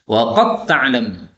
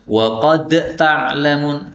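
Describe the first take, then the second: First: The d disappears and merges into the t. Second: The d is pronounced separately before the t. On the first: The speaker calls it right. "dalnya hilang, masuk tak, idgham" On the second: The speaker calls it wrong. "Tidak boleh dibaca wa qad ta'lamun, salah"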